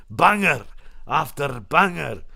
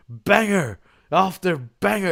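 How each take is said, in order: First: Slow Scottish take on a catchphrase; Scottish accent. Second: Slow, drawn-out commentator catchphrase; Corey Graves. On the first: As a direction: put on a Scottish accent, roll the R's and draw it out. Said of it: "I put the Scottish accent on". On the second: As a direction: imitate a video-game wrestling commentator, stretching the words. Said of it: "Corey Graves on the game starts going". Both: Retold or imitated.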